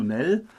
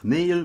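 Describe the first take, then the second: First: "Nell" as one short syllable; one-syllable contraction. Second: Said in the usual way. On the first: Shown as a demonstration. Showing how the word for tomorrow shrinks, "Nell" as one short syllable. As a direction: say "Nell" with a short, single vowel. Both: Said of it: "einer einzigen Silbe".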